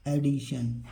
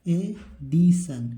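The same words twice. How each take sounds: First: Said in the usual way. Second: एडिशन very slowly, e, di, shun; drawn-out teaching model of एडिशन; syllable-by-syllable reading. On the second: Shown as a demonstration. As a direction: stretch एडिशन with gaps between syllables. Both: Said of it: "इसको क्या पढ़ेंगे?".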